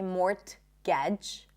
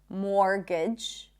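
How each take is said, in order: First: The T sound is pronounced in the middle. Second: The T sound is left out entirely. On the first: The speaker calls it wrong. "We don't say mortgage" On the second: The speaker calls it right. "More words with silent T"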